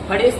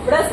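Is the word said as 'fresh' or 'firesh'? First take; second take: firesh; fresh. First: It is said with an extra vowel after f. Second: It is said as fresh, with no extra vowel. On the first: This is the older local dialect form. The speaker calls it wrong. "फ्रेश नहीं बोला जाता है" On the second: This is the educated standard form. The speaker calls it right. "इसको फ्रेश बोला जाता है"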